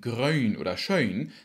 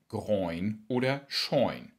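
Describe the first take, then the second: First: The vowel is a rounded öi glide. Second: The vowel is an oi glide. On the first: This is the general Low German form. "Aus dem zweilautigen Öi" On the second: This is the Hamburg form. "macht der Hamburger ein Oi"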